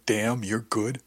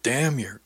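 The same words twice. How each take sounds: First: Slow, drawn-out purring voice; imitating Alicia Alvarez. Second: Said in the usual way. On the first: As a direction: stretch each word out slowly. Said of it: "You had Alicia Alvarez saying". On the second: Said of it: "I held up my hand to interrupt her".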